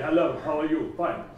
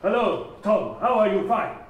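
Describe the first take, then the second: First: A lightly mocked flat, robotic student voice; flat mechanical voice. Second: Said all in one. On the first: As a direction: mimic a learner droning without melody. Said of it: "they put on this very mechanical, flat voice range". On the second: Retold or imitated. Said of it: "they say it all in one".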